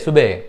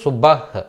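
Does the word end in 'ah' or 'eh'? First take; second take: eh; ah. First: The word ends in a short 'eh' sound. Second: The word ends in an 'ah' sound. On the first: This is how native speakers say it. "బెహ్ చేశారు అన్నమాట" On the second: This is how it is written. "రాసేటప్పుడు సుబహ్"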